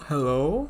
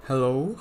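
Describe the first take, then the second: First: Hello through a barbarian voice mod; barbarian voice changer. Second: Said in the usual way. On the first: Shown as a demonstration. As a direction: test the barbarian filter on a Hello. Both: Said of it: "There's a barbarian voice".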